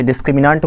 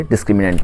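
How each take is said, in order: First: डिस्क्रिमिनेंट said with long AA near the end; डिस्क्रिमिनेंट as dis-kri-mi-NAANT, the AA variant. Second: डिस्क्रिमिनेंट said with E near the end; डिस्क्रिमिनेंट as dis-kri-mi-NENT, the E variant. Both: Shown as a demonstration. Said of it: "pronunciation में ज़्यादा बहस नहीं".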